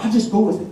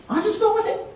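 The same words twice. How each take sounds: First: Said in the usual way. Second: Pitched way up, rising at the end; high questioning repeat. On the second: Retold or imitated. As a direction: repeat it high, as if trying out the idea.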